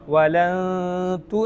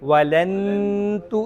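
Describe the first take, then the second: First: The n is hidden with a nasal hum. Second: The n is pronounced fully and clearly. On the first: The speaker calls it right. "വലന്തു എന്ന് വേണം പറയാൻ" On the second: The speaker calls it wrong. "വലന്തു എന്ന് പറയരുത്"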